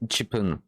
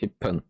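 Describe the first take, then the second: First: The full syllable chi is said before pun. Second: The syllable is dropped, leaving a doubled p. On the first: The speaker calls it wrong. "c'est pas Chipun" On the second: The speaker calls it right. "C'est Hippun"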